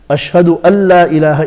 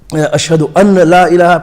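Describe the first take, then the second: First: The n merges into the l sound. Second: An n sound is heard before la. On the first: The speaker calls it right. "the noon is not pronounced" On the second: The speaker calls it wrong. "people pronounce a na, noon"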